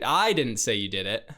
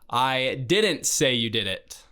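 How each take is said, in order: First: The stress is on "I". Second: The stress is on "didn't".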